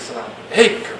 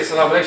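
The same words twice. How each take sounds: First: Lower, soft sultry salam; flirty sweetened greeting. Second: Said in the usual way. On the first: Shown as a demonstration. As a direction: purr it to tempt the listener. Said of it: "She said". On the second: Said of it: "She didn't say".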